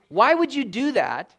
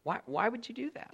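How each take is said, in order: First: Louder, slow, imploring why; pleading. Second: Much softer, gently repeated question; soft plea. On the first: Preacher imploring his congregation, loud slow pleading. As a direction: push the question out hard and slow. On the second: Preacher asking his congregation again, soft pleading. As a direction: drop to a near hush and ask again. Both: Acted.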